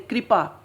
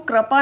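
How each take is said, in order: First: The r is followed by a light 'i' vowel. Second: The r is followed by an 'a' vowel. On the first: The speaker calls it right. "ई की ध्वनि निकल रही है इसमें" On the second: The speaker calls it wrong. "हम इसको कृपा नहीं बोलते"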